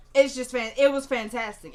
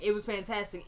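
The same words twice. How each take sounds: First: Much louder burst of praise; shouting praise for the performance; real excitement. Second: Said in the usual way. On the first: Real, not acted. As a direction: blurt out how great it was. Raving about the actress.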